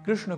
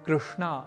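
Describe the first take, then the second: First: The name ends without a long final vowel. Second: The name ends with a long final vowel. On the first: It names a male figure. The speaker calls it right. "कृष्ण तो पुल्लिंग शब्द है" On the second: It names a female figure. The speaker calls it wrong. "यह उच्चारण नहीं करना"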